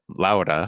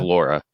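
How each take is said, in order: First: The name is said with a Spanish accent. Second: The name is said with an English accent. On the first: "I can't even pr- pronounce it correctly in Spanish" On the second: "just becomes Laura in an English speaking environment"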